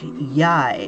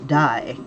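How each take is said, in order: First: The word begins with a Y sound. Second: The word begins with a D sound. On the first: The speaker calls it right. "the D is a a Y, a Y sound in this particular instance" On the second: The speaker calls it wrong. "and not die"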